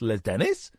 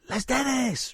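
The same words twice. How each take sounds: First: It is said as a question. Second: It is said as an exclamation.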